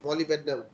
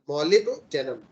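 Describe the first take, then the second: First: It is split as molly plus bednam. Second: It is split as molib plus denim. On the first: The speaker calls it wrong. "Some people say like this, which is incorrect" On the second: The speaker calls it right. "you say molib and then denim"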